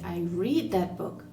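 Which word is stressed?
read. The stress falls on the word read. I read it rather than listening to it. "I didn't listen to it on Audible"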